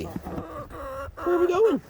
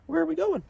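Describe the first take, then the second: First: High, very slow and stretched; high stretched question; drawn-out pet talk. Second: High, at normal speed; high brisk question; quicker pet talk. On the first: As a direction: drag it out teasing the bird. Hen following her. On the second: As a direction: ask the bird again briskly. Repeat to the hen. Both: Acted.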